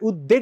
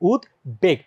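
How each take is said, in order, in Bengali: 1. যুক্তব্যঞ্জনের 'b' ধ্বনিটি নীরব। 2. যুক্তব্যঞ্জনের 'b' ধ্বনিটি শোনা যায়। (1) "উদ্বেগ না" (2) "এটার সঠিক উচ্চারণ হচ্ছে কি উদ্বেগ"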